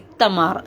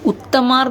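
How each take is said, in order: First: The name begins with an 'ee' vowel. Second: The name begins with an 'oo' vowel. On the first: The speaker calls it right. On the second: The speaker calls it wrong.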